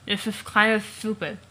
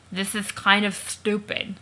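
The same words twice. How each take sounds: First: Words garbled around an object held in the mouth; reading the line with a prop stuck in the mouth; something in the mouth. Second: Slow, mushy words through prop teeth; mumbling the line with teeth stuck in the mouth; mouth full of teeth. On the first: Shown as a demonstration. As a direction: copy the muffled teeth delivery. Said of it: "attempt to read his lines with something in my mouth". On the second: Acted. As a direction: talk around a mouthful of fake teeth. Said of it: "he's trying to talk with the teeth in his mouth".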